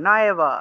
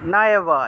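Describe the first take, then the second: First: The first vowel sounds like a long 'aa'. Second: The same.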